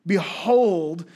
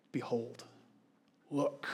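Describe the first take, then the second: First: "Behold" called out louder as a command; emphatic behold. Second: Soft behold. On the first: Preacher commanding the congregation, a loud ringing "Behold". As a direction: proclaim "Behold" firmly to the room. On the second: Preacher to congregation, hushing "Behold" softly. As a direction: drop to a hushed, much softer "Behold". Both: Shown as a demonstration.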